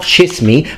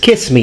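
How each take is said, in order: First: The first word begins with a CH sound. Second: The first word begins with a K sound. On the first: The speaker calls it wrong. "not chiss me" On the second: The speaker calls it right. "people pronounce it like a K sound"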